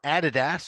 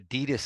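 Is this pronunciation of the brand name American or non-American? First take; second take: non-American; American. First: It is said with a non-American pronunciation. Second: It is said with an American pronunciation.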